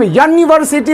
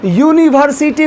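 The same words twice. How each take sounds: First: यूनिवर्सिटी opening on a short "yuh"; correct pronunciation. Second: यूनिवर्सिटी opening on a long "yoo"; wrong pronunciation. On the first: Teacher modelling the right reading, यूनिवर्सिटी starting "yun" instead of "yoo". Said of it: "इसको हम यूनिवर्सिटी बोलते हैं". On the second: Teacher showing how not to read it, यूनिवर्सिटी with a long "yoo". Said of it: "यूनिवर्सिटी नहीं पढ़ते हैं". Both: Shown as a demonstration.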